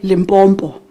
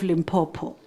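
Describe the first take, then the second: First: The name is said with an added M sound. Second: The name is said without any M sound added. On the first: The speaker calls it wrong. "adding an M where there is no M" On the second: The speaker calls it right. "I now pronounce the name correctly. There is no M"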